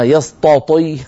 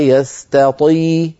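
First: Both t sounds are heavy and emphatic. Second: A light t is followed by an emphatic t. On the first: The speaker calls it wrong. "قلبنا التاء طاء" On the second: The speaker calls it right. "هكذا نعطي كل حرف حقه"

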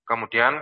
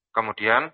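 The two takes are said the same way.

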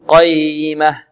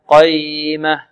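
The two takes are said the same way.

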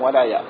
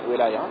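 First: The first vowel is an open a sound. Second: The first vowel is an i sound. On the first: It means God's support and closeness to a believer. The speaker calls it right. "الولاية بالفتحة" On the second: It means governance or authority, like a ruler's. The speaker calls it wrong. "ليس ولاية"

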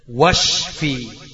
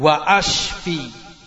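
First: The hamza is dropped, and wa links straight on. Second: The hamza is kept as a separate glottal stop. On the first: The speaker calls it right. "hilang hamzanya, enggak kebaca" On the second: The speaker calls it wrong. "kalau kamu salah ucap ... enggak hilang hamzanya"

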